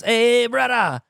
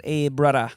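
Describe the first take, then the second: First: Loud, high Hawaiian-style greeting; attempted Hawaiian accent. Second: Botched Hawaiian greeting, sounding Jamaican; retry the Hawaiian accent and land on Jamaican; Hawaiian accent turned Jamaican. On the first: Comic imitating a guy greeting him at a bar, attempted Hawaiian accent. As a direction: call out in a shaky-quality Hawaiian accent imitation. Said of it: "he's speaking in a Hawaiian accent". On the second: Retold or imitated. Comic retrying his greeting for a doubter, Jamaican-sounding accent. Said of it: "Nope, Jamaican".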